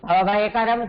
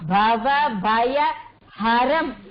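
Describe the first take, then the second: First: The last word begins with a k sound. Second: The last word begins with an h sound. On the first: It means one who causes fear. The speaker calls it wrong. "நம்ம எல்லாம் வேகமா சொல்லும் போது என்ன சொல்லுவோம்? ... பவபயகரம்னுவோம்" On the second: It means one who removes fear. The speaker calls it right. "பவ பய ஹரம், ஹரம் பண்றவர்"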